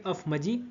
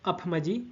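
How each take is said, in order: The two takes are said the same way.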